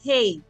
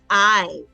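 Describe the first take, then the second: First: It is said with an h sound, like hey. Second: It is said with no h, like eye. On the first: The speaker calls it wrong. "that's not hey" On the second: The speaker calls it right. "H is silent, so it's I"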